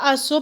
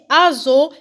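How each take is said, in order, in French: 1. La consonne du milieu est un son s sifflant. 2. La consonne du milieu est un son z sonore. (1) "c'est pas azo" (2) "on dit azo"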